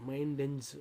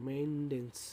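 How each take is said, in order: No difference in how they are said.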